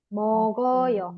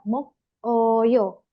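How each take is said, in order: First: The consonant moves onto the following vowel. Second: The consonant stays with the first syllable. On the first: "gioknya naik menjadi mogoyo" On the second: "selanjutnya ada mok oyo"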